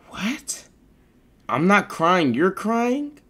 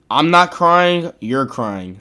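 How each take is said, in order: First: Higher questioning rise on crying; incredulous reread. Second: Said in the usual way. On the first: Real, not acted. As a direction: repeat it, baffled by the words.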